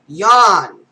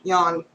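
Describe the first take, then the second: First: Big loud stretched yawn, falling at the end; loud yawned word. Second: Said in the usual way. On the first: Acted. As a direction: belt the word Yawn out like a huge yawn. Reading a page of yawns.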